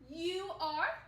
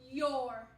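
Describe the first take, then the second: First: Two full words are said separately. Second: The words are squeezed into one syllable. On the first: "These are two words" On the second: "the two words are squished together"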